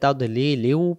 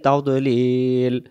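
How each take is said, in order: First: The word runs on with an added vowel ending. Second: The word stops cleanly on its final consonant. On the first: "যদি দমটা ধরে যাই তাহলে তাওদলিলিউ পড়ে যাব" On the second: "দমটা ছেড়ে দিলে ফি তাওদলিল"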